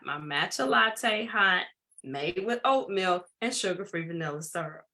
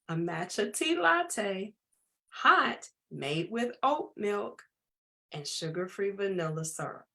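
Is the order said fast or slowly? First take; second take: fast; slowly. First: It is said at a quick pace. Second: It is said at a slow pace.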